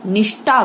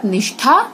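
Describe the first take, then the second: First: निष्ठा with unaspirated "t"; wrong consonant. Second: Said in the usual way. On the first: Shown as a demonstration. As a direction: say निष्ठा as "nishtaa", no breath. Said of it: "गलत". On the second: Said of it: "सही".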